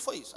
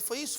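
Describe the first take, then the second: First: Soft, lower "Foi isso" as a statement; retold confirmation. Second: Soft "Foi isso" rising into a question; retold question. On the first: Parents confirming to the pastor, soft lowered "Foi isso". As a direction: settle "Foi isso" quietly downward, confirming. Retold answer to same question. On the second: Pastor checking with the parents, soft questioning "Foi isso". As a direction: lift "isso" quietly, as if checking.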